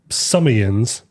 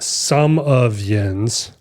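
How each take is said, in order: First: The phrase is said quickly, words run together. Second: The phrase is said at a normal pace.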